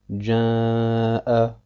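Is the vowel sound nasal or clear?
nasal. The long vowel is mixed with nasal sound. The speaker calls it wrong. "mit dem Nasallaut zu verbinden"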